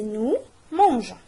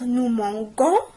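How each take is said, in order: First: The g is a soft j sound. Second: The g is a hard g sound. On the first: The speaker calls it right. "mais nous mangeons" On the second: The speaker calls it wrong. "G avec O c'est go. Mais pour ne pas dire nous mangeons"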